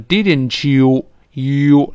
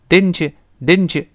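First: The word you is fully and exaggeratedly pronounced. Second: The word you is weakened and reduced. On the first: The speaker calls it wrong. "太夸张的" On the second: The speaker calls it right. "往往变成ye 就好了"

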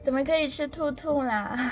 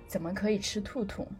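First: It is said in a coy, coquettish tone. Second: It is said in a plain, ordinary tone.

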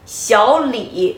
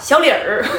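First: It ends plainly without an r-coloured ending. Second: It ends with an r-coloured er sound. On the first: The speaker calls it right. "姓李不能加儿化音，小李，哎，你得这么叫" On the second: The speaker calls it wrong. "不能叫小李儿，这个不行"

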